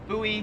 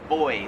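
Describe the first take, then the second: First: It is said with an American pronunciation. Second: It is said with an Australian pronunciation. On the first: "We pronounce that buoy" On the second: "Here in Australia, they pronounce it boy"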